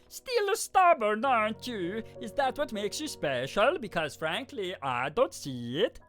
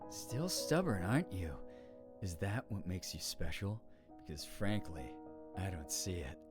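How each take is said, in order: First: It is said in a ridiculous voice. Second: It is said in a creepy voice.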